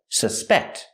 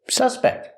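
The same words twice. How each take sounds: First: The stress is on the second syllable. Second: The stress is on the first syllable. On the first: It is the action of thinking someone guilty. "If it's a verb, the stress is on the second syllable" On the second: It names a person thought guilty. "If it's a noun, the stress is on the first syllable"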